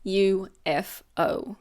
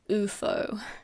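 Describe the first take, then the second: First: Each letter is said separately. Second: It is said as a single word. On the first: The speaker calls it right. "we pronounce each letter" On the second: The speaker calls it wrong. "we don't say U F O"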